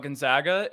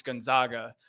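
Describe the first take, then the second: First: Gonzaga with a Michigan flat A, gon-ZAG-uh; Michigan accent. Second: Gonzaga as gon-ZAH-guh, with an open ah; commenters' correction. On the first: Real, not acted. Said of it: "that's the Michigan accent coming out". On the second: Retold or imitated. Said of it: "I got torched in the comments".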